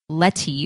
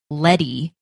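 First: The middle consonant is a crisp T sound. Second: The middle consonant sounds like a soft D. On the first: The speaker calls it right. "it's obviously spelt with two T's" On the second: The speaker calls it wrong. "with a D"

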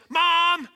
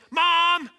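First: The call is a loud, frantic yell. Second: The call is a loud, frantic yell.

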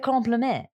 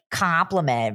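First: The word is said with a French pronunciation. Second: The word is said with an English pronunciation. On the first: The speaker calls it right. "In French" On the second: The speaker calls it wrong. "they don't know how to truly pronounce it"

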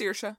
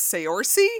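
First: The name is said in its Irish pronunciation. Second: The name is sounded out from its letters. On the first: The speaker calls it right. "Nope, it's Saoirse" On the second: The speaker calls it wrong. "what is this"

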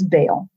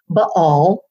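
First: The name is given its everyday pronunciation. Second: The name is given its scholarly pronunciation. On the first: This is the form most ordinary people use. "most people, just kind of common people, just refer to it as Baal" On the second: This is the technically correct form used by scholars. "technically it's supposed to be said Baal"

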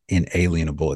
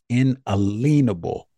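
First: The middle is said like the word 'alien'. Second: The middle is said like the words 'a lien'. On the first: The speaker calls it wrong. "Everybody says inalienable. It's not inalienable" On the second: The speaker calls it right. "It's inalienable, meaning that no lien can be placed"

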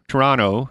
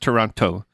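First: It is said the way Canadians say it. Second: It is said the way non-Canadians say it.

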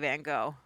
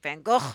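First: The name is said the usual American way. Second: The name is said in a non-American way. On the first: The speaker calls it wrong. "I'm American, so I think I say Van Gogh" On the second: The speaker calls it right. "Isn't it really pronounced something like Van Gogh?"

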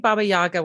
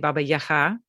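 First: The name is said with an English pronunciation. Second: The name is said with a Ukrainian pronunciation. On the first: It is the form English speakers will recognize. "I say Baba Yaga when I'm speaking to English native speakers" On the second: It is the form Ukrainian speakers will recognize. "which is the pronunciation in Ukrainian"

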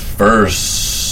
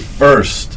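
First: The word is stretched out for a long time. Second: The word is said short, at normal length. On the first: "He tries to extend that word, but as long as he can" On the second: "But he doesn't say it like that"

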